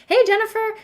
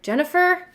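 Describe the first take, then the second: First: The name is said in a friendly, warm tone. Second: The name is said in a stern, confrontational tone.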